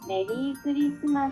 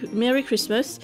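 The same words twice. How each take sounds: First: It is said with a Japanese pronunciation. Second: It is said with an English pronunciation. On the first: "avec la prononciation japonaise" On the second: "comme en anglais"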